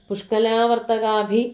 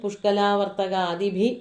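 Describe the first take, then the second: First: The word is said with one syllable missing. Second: The word is said with the full syllable count. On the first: The verse loses its metre. The speaker calls it wrong. "അങ്ങനെ പറഞ്ഞാൽ പോരാ, അവിടെ വൃത്തഭംഗം വരും" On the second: The verse keeps its metre. The speaker calls it right. "എന്ന് തന്നെ പറയണം"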